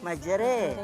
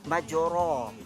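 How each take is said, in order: First: The vowel after r is a mid e. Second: The vowel after r is an open a. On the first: "Kalau baris imalah majre" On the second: "Kalau baris di atas kita baca majra"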